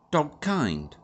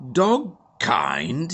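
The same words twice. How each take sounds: First: Said in the usual way. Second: Louder rising splutter; the Major can't believe his ears; spluttering disbelief. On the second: A narrator's reading. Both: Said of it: "he spluttered".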